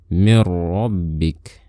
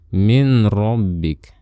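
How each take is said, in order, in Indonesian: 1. Nun menyatu sepenuhnya ke dalam ra yang mengikuti. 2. Bunyi nun dilafalkan sebelum ra. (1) "tapi mir rabbik" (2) "Jadi jangan min rabbik"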